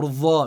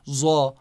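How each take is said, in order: First: The letter starts with a 'dh' sound. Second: The letter starts with a 'z' sound. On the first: "or Dha. No" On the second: "for Dad I say Za"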